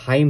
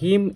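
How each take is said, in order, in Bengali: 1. স্বরধ্বনিটি 'high'-এর মতো। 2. স্বরধ্বনিটি 'him'-এর মতো। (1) "এটার উচ্চারণ কিন্তু হাইম না" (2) "ব্রিটিশরা অ্যান্ড আমেরিকানরা প্রায় এই হিমের মতো করে প্রোনাউন্স করে"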